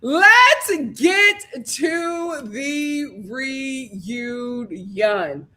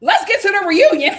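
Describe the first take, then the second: First: Slow drawn-out. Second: Laughing announce. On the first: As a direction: stretch every word very slowly. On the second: Laughing first take. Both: Real, not acted.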